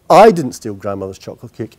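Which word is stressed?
I. The stress is on "I".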